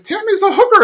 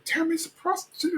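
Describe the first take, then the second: First: High-pitched mock outburst; blurted out. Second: High, hushed mock secret; covert. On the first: Hank announcing it to the whole library, high blurt. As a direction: imitate an indiscreet blurt, much higher. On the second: Hank confronting Tammy in the library, high covert hush. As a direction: imitate someone trying to say it discreetly. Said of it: "trying to be covert".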